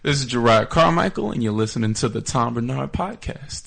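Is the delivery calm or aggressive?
calm. It is said in a calm, friendly way.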